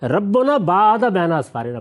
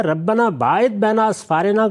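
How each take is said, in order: First: ربنا باعد said "rabbuna baa'ada", slowly; slow recitation, ربنا as rabbuna, باعد as baa'ada; altered verse reading. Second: ربنا باعد said "rabbana baa'id", slowly; slow recitation, ربنا as rabbana, باعد as baa'id; original verse reading. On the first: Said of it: "پڑھ دیا". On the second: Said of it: "تو اب اس نے کیا کیا". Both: Shown as a demonstration.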